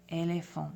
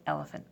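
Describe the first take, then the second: First: "éléphant" said the French way, /elefo/, with no English stress; French pronunciation. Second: "elephant" said the English way, stress on the first syllable; English pronunciation. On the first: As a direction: say "éléphant" as in French, every e closed like a long A. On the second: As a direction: say "elephant" in plain English, as a contrast. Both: Shown as a demonstration. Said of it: "instead of elephant".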